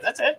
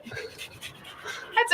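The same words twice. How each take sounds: First: Said in the usual way. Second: That's it whispered, higher and softer; sly whisper. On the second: Acted. Teasing cohost about wanting the tip, sly whisper.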